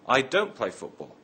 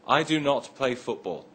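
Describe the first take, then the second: First: The words do not are contracted to don't. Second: The words do not are said in full. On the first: "you would usually say" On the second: "Instead of saying"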